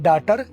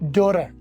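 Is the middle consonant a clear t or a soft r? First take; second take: clear t; soft r. First: The middle consonant is a clear t sound. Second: The middle consonant sounds like a soft r. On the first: "हम बोलते हैं डाटर" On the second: "आपने सुना डोरर"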